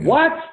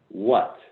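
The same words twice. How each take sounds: First: The word is said with alarmed, exclamatory intensity. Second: The word is said plainly, with calm curiosity. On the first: The situation feels stressful and overwhelming. "what with three question marks and five exclamation points after it" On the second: One is simply inquiring into present experience. "this is a simple what"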